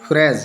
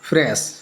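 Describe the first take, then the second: First: फ्रेज with a voiced z ending; S read as Z. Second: Said in the usual way. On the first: Shown as a demonstration. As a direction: end फ्रेज on a buzzing z, not s. (फ्रेज के अंत में 'ज़' की आवाज़) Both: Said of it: "जा के रूप में हम पढ़ेंगे".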